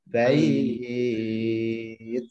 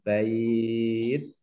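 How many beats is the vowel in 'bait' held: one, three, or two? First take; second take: three; two. First: The vowel is held for three beats. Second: The vowel is held for two beats. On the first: "Atau tiga alif juga boleh" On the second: "Dua alif boleh"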